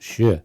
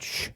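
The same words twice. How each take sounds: First: The sound carries a little voiced vowel quality. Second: The sound is a bare voiceless consonant hiss. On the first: The speaker calls it right. "you have a little vo- vocalization" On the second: The speaker calls it wrong. "just a consonant"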